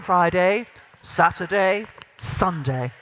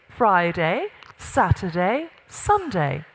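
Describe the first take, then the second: First: Low, weighty days settling deep at the end; gravitas. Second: Lilting upward swings, falling only on the last day; less executive. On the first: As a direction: drop firmly down onto the last day. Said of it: "the gravitas piece". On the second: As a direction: lift each day questioningly, then close. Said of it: "Can you hear the difference?". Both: Shown as a demonstration.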